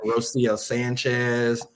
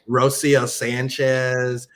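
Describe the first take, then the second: First: The name is said at normal volume. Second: The name is said loudly.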